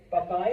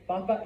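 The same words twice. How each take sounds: First: "papa" as pa-PA; Spanish "papa" with the second syllable stressed; stress on last syllable. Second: "Papa" as PA-pa; Spanish "Papa" with an unstressed ending; stress on first syllable. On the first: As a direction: punch the final A of "papa". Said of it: "Pronounce that last A". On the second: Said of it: "Papa is potato". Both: Shown as a demonstration.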